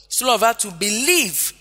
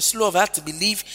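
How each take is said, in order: First: "believe" lifted and stretched, then falling; single out "believe" as the point; stress on believe. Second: Said in the usual way. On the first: Shown as a demonstration. Preacher repeating the verse's key phrase, stress on "believe". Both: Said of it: "See the emphasis on believing".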